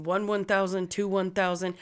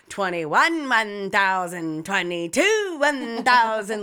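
First: Said in the usual way. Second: Loud, drawn-out mocking count; messing around. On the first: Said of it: "because he was like". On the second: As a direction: stretch each number out loudly to taunt. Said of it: "I started fucking with him".

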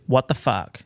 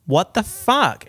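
First: Said in the usual way. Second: High, loud, drawn-out FUCK; emphatic disbelief. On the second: Real, not acted. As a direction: repeat it louder and slower, stretching "fuck". Repeats the exclamation for emphasis.

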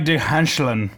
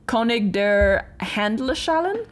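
First: König der Handschellen with syllables dropped; clipped German attempt. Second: König der Handschellen said slowly in careful German; German pronunciation. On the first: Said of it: "you missed several syllables". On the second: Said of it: "earned him the nickname". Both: Shown as a demonstration.

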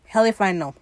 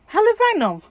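First: Said in the usual way. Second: Much higher, comically exaggerated pitch; high-pitched repeat. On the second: Real, not acted. Answering own question why it was needed, comically high-pitched.

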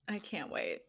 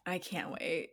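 First: Soft, voiced "I can't wait."; quiet. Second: Soft unvoiced whisper. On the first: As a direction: say "I can't wait." softly but with voice. Repeats it aloud softly. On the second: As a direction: breathe "I can't wait." with no voice at all. Mock dread about aging.

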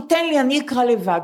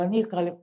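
First: Said in the usual way. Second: אני אקרא לבד repeated much softer, to herself; quiet echo of אני אקרא לבד. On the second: Retold or imitated. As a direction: drop אני אקרא לבד to a near mutter. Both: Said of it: "אז אמרתי".

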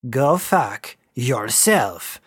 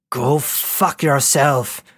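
First: Slow, each word bitten off; biting each word. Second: Shouted. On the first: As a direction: spit out every word slowly. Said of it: "She bit off each word". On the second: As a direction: fling it back at her. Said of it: "shouted Ishmael this time". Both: A narrator's reading.

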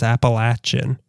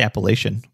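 First: "Appalachian" with a short A, LATCH-un; someone else's pronunciation. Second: "Appalachian" with a long A, LAY-shun; preferred pronunciation. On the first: Host quotes how Melissa says it, short-A pronunciation. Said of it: "Melissa always says Appalachian". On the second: Co-host answers how she says it, long-A pronunciation. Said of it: "I say Appalachian". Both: Shown as a demonstration.

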